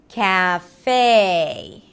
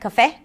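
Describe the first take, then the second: First: The first syllable is full and drawn out. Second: The first syllable is short and reduced. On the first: The speaker calls it right. "but cat in American English. So you drag it" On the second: The speaker calls it wrong. "Not cafe"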